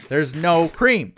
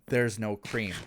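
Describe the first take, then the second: First: "There's no cream" slower, louder and higher; "There's no cream" stretched out and punched; emphatic repeat. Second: Said in the usual way. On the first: Shown as a demonstration. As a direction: hammer home "no cream" in disbelief.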